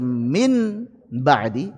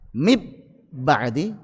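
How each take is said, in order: First: The n is pronounced fully and clearly. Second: The n is merged into a doubled b. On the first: "tidak cocok dibaca min ba'di izhar"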